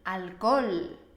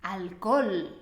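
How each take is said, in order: The two takes are said the same way.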